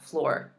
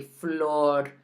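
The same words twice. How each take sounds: First: "floor" with a rounded American R; English floor. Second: "flor" slow, with a pure O and tapped Spanish R. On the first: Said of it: "That's English". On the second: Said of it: "making sure you say flor". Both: Shown as a demonstration.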